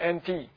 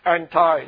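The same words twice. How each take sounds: First: The word ends with an 'ee' sound. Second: The word ends with an 'eye' sound. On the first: This is the non-American way of saying it. "not anti" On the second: This is the Americanized way of saying it. "Everything is I, anti"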